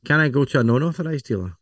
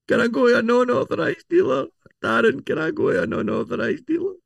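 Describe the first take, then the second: First: Said in the usual way. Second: Much higher, silly put-on voice; squeaky high mock voice. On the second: Customer pestering Darren in a much higher silly voice. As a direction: play a whiny customer asking the expert.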